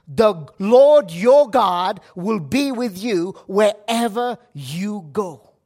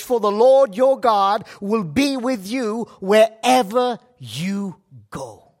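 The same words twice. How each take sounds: First: Slower and louder, leaning on "Lord"; emphatic repeat. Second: Said in the usual way. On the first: Shown as a demonstration. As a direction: drive the promise home, stressing "Lord". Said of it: "What a promise". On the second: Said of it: "This is Joshua one nine".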